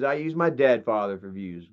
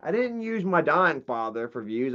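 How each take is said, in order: First: "my" and "dead" stressed, low falling tune; deadpan correction. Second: "didnt" stressed with a rising tune; low and soft, setting up the correction; stress on didn't. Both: Shown as a demonstration. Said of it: "Get it right".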